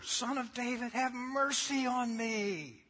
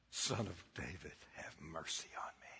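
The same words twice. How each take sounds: First: Loud pleading cry of the blind beggar; yelling beggar. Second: Hushed, whispered plea for mercy; soft whispered prayer, much softer. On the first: Retold or imitated. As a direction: shout it out, begging for mercy. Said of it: "He yells louder". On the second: Shown as a demonstration. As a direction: breathe it out as a quiet prayer. The God-stopping prayer, said softly.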